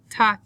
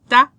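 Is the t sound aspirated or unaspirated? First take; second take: aspirated; unaspirated. First: The t is released with a strong puff of breath. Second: The t is released with almost no breath. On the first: The speaker calls it wrong. "That's a bit much for the Spanish sound" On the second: The speaker calls it right. "letra T hardly has any breath behind it"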